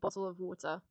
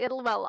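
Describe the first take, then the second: First: The T sounds are lightly pronounced. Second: The T sounds are dropped, said quickly. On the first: This is the speaker's normal way of saying it. "I don't emphasize the T's, but they are there" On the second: The speaker is rushing their words. "I only say it like that if I'm rushing"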